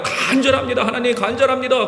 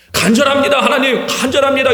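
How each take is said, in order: First: A lightly mocking plea with a laugh in it; half-laughing mock prayer. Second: Imitating an earnest plea, said a bit louder; eager mock plea. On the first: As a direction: mimic a lukewarm prayer, chuckling. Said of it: "하나님 앞에 나아가긴 나가요". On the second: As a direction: act out an eager but hollow prayer. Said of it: "실제로 돌아보면 안 돼도 말아야 돼".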